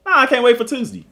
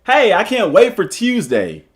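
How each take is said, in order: First: "Tuesday" as "Toozdee", with a higher "Nah"; his dad's Southern "Tuesday"; higher, drawled Mississippi "I can't wait for Tuesday". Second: "Tuesday" as "Tyoozday" in a bright sentence; hammed-up proper "I can't wait for Tuesday". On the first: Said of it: "that's how my dad talk". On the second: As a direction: sell the proper "Tuesday" cheerfully. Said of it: "that sounds proper". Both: Shown as a demonstration.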